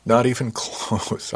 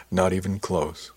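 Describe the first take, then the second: First: Slow, amused denial breaking into a laugh. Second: Said in the usual way. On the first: A narrator's reading. Reassuring the nervous new girl, laughing. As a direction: laugh through the words. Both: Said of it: "I laughed".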